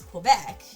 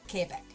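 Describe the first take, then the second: First: It is said with an English Canadian accent. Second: It is said with a French Canadian accent. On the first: "I think the Canadian pronunciation is Quebec" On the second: "most people with a French accent, uh, um, a French Canadian accent, would say Quebec"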